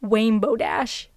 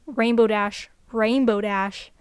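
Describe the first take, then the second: First: "Wainbow" with a W sound for the R; slow "Wainbow Dash", the R turned into W; W instead of R. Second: Said in the usual way. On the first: Shown as a demonstration. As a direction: say "Wainbow" like a child who can't say R. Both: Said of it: "I said W instead of R".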